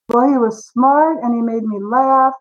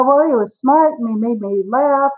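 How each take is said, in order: First: Deliberate repeated answer. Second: Said in the usual way. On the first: Retold or imitated. Same answer repeated after being pressed.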